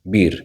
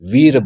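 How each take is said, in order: First: The word begins with a B sound. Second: The word begins with a V sound. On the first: This is how people in parts of north India say it. "उत्तर भारत के कुछ हम स्थान देखें तो वहाँ पे बीर बोलते हैं" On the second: This is how people in Maharashtra say it. "जैसे महाराष्ट्र में वीर बोलते हैं"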